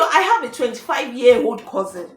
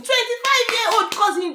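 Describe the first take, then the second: First: Said in the usual way. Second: High-pitched, disbelieving repeat; incredulous echo. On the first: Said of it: "The guy said". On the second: Real, not acted. Host challenges the man's claim about his cousin, incredulous. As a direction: throw the words back in disbelief.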